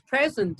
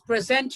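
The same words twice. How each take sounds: First: The stress is on the first syllable. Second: The stress is on the second syllable. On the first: It is used as a describing word. "Stress on the first syllable" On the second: It is used as a verb. "as a verb"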